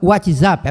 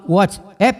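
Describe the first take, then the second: First: It is said with an adapted Portuguese pronunciation. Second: It is said with an English pronunciation. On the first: "na adaptação, na simplificação, o pessoal fala WhatsApp" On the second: "Eu falo WhatsApp porque é inglês"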